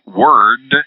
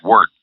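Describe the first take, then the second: First: The final d sound is clearly pronounced. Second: The final d sound is dropped. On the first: The speaker calls it right. "has that D at the end" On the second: The speaker calls it wrong. "you don't get that D out properly, and it will sound like"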